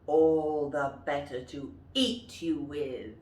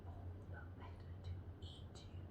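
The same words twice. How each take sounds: First: Louder wolf line; menacing wolf, full voice. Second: Very low, fast whisper; hissed wolf threat. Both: Shown as a demonstration. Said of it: "And the wolf says".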